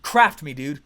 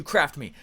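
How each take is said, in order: First: Louder, punchy "Craft me" with the weight on "Craft"; eager plea. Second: Said in the usual way. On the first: Retold or imitated. To his coach, retelling his eager loud plea. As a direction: demand it like a hungry student. Begging his mentor to push him.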